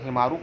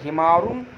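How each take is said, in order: First: The word ends on a plain u vowel. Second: The word ends with an added n sound. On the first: The speaker calls it right. "ये मुजाफ है तो इसको हिमारू करना है" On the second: The speaker calls it wrong. "हिमारुन और रजुलुन नहीं करना है"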